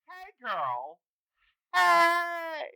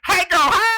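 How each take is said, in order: First: It is said calmly, without screaming. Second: It is screamed loudly and energetically.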